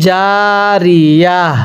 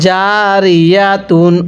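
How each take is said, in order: First: The word ends with an open 'a' sound. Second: The word ends with a 'tun' sound. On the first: The reader stops at this word. "ওয়াকফ করলে জারিয়া" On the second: The reading continues without stopping. "তা দুই পেস্তুন"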